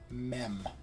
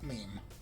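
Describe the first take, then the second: First: The vowel is short, like in 'them'. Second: The vowel is long, like in 'team'. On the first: The speaker calls it right. "It's always mem" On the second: The speaker calls it wrong. "not meme"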